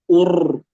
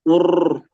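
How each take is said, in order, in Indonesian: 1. Huruf r punya getaran panjang dan berlebihan. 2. Huruf r punya getaran panjang dan berlebihan.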